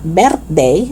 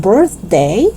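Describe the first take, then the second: First: "birthday" as "bert-day". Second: Tongue out in the middle of "birthday"; TH sound. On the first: Teacher showing learners the mistake, "birthday" as "bertday". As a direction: open E and hard T in "birthday". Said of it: "It's not birthday". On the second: Teacher correcting learners, "birthday" with clear TH. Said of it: "but birthday". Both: Shown as a demonstration.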